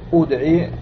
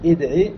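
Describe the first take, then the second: First: The first vowel is a pure, fully rounded u. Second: The first vowel is an i with lip rounding. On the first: The speaker calls it wrong. "ولا تقول ادعي بالضم الخالص" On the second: The speaker calls it right. "إشمام"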